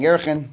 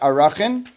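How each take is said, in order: First: The word is said with two syllables. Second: The word is said with three syllables. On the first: This is the pronunciation handed down by tradition. The speaker calls it wrong. "It's probably mispronounced" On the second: This is the more correct pronunciation. The speaker calls it right. "probably better pronounced Arachin"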